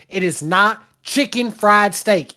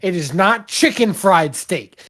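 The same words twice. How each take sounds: First: It is said in a strong Southern accent. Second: It is said in the speaker's usual accent.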